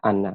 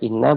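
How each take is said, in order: First: The word begins with an 'a' vowel. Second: The word begins with an 'i' vowel. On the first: "boleh dibaca fathah" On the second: "boleh dibaca kasrah"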